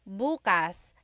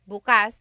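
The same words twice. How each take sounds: First: The stress is on the first syllable. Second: The stress is on the second syllable. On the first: It means tomorrow. "emphasis is on the first syllable. That means tomorrow" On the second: It means open. "the emphasis is on the second syllable. That means open"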